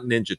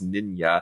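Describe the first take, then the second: First: The middle consonant is a J sound. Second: The middle consonant is a Y sound. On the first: The speaker calls it wrong. "she spells her name like ninja, but it's not Ninja Thyberg" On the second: The speaker calls it right. "It's Ninya"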